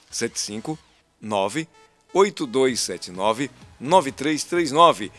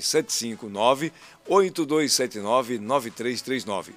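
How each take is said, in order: First: The number is read very slowly. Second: The number is read at normal speed.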